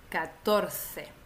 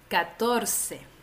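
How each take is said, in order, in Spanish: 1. La c suena como la th del inglés. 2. La c suena como una s. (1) "en España"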